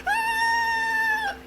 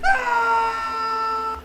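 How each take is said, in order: First: Very high shrill-pitched fake scream; high mock scream. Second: Very high wailing scream, crying and shouting; a better, longer horror scream with a sob in it. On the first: Vlogger imitating the lady's scream in the trailer, high mock scream. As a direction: shriek it like a horror-film victim. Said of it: "she starts screaming like". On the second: Retold or imitated. Vlogger redoing the lady's scream as a better one, wailing cry scream. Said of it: "I got a better scream for this".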